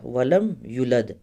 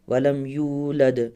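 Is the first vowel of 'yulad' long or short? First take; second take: short; long. First: The first vowel of yulad is short. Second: The first vowel of yulad is long. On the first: The speaker calls it wrong. "किसी हर्फ को गठा देना" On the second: The speaker calls it right. "असल में क्या है"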